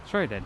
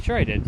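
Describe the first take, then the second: First: Lower, softer smug repeat; quiet smug. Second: Said in the usual way. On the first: Real, not acted. Answering the doubter, quiet smug repeat. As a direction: drop it low and let it land.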